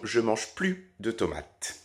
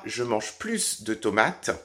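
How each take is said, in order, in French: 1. Le S de la fin de 'plus' est muet. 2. Le S de la fin de 'plus' se prononce. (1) "si je ne prononce pas le S" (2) "premier cas"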